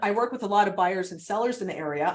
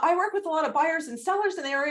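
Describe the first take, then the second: First: The voice goes down at the end. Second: The voice is high and rises at the end.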